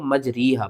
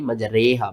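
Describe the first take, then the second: First: मजरीहा with री as "ree"; common misreading. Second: मजरेहा with रे as "ray"; correct imala reading. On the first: Retold or imitated. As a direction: say मजरीहा with a long ee in the middle. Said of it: "बहुत से लोग मजरीहा पढ़ते हैं". (मजरीहा, 'ई' की आवाज़ के साथ) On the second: Shown as a demonstration. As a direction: say मजरेहा with a long ay in the middle. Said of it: "मजरीहा नहीं मजरेहा पढ़ना है". (मजरेहा, 'ए' की आवाज़ के साथ)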